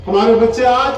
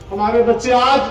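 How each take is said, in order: Both takes have the same delivery.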